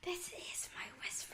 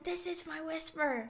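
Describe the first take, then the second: First: It is said in a quiet whisper. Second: It is said too loudly for a whisper.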